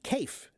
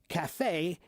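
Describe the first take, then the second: First: The word is given an English, spelling-based pronunciation. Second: The word is given its French pronunciation. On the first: "The English pronunciation would be cafe" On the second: "Cafe is a French pronunciation"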